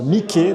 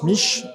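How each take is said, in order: First: The name has two syllables, ending in an ee sound. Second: The name has one syllable, ending in an sh sound. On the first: This is how it is said in Italy. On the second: This is how it is often said in France.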